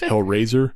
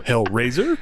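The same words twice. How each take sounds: First: The word is slurred together without a pitch rise. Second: The word is clipped with pitch rising in the middle. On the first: "true Yinzers lazy their words in, which is why it goes Hellraiser" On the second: "more staccato with your New York uh, accent, and you go Hellraiser, and you raise up"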